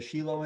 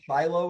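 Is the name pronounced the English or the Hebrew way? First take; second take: Hebrew; English. First: The name is said with a Hebrew pronunciation. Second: The name is said with an English pronunciation. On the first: "in Hebrew" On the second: "in English"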